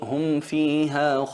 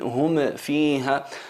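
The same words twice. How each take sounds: First: The m is clear and smooth, without a bounce. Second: The m is pushed out with an echoing bounce. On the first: The speaker calls it right. "insistes en pronunciarla bien" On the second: The speaker calls it wrong. "la hacen notar hasta el punto de pronunciarla con eh, el rasgo distintivo de al-qalqala, y eso es un error"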